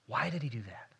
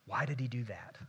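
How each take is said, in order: First: Hushed whispered question. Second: Said in the usual way. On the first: Shown as a demonstration. Pastor to congregation, whispering the question.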